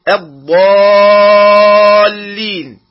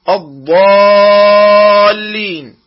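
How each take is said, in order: Both takes have the same delivery.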